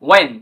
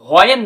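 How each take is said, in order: First: The word begins with a w sound. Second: The word begins with an h sound. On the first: The speaker calls it right. "এখানে ওয়েন" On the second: The speaker calls it wrong. "এখানে কিন্তু হোয়েন না"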